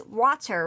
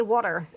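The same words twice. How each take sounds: First: Said in the usual way. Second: "water" said as "wawter"; Philly "water". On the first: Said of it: "but it's actually". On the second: Shown as a demonstration. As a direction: round the first vowel of "water" to "aw". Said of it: "I always say water".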